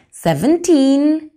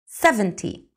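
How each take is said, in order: First: Put-on "Seventeen" slow and louder, with a long, rising "teen"; teacher contrasting "Seventeen" with "seventy". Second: "seventy" with a falling, short, dry "ty"; teacher contrasting "seventy" with "Seventeen". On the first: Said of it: "Fijaos en la diferencia". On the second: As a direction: clip the "ty" of "seventy". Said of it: "Es más seco, es más rápido". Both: Shown as a demonstration.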